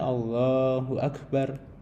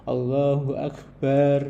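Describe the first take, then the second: First: The last vowel of Akbar is kept short. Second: The last vowel of Akbar is drawn out long. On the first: The speaker calls it right. "itu kan pendek kan" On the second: The speaker calls it wrong. "bar itu salah gitu ya"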